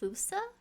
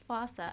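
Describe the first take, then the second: First: The first vowel sounds like 'oo'. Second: The first vowel sounds like 'o' in 'fossil'. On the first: This is how the film said the name. The speaker calls it wrong. "they pronounced it Fusa, which is weird" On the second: This is how the zoo said the name. The speaker calls it right. "it's totally pronounced fossa"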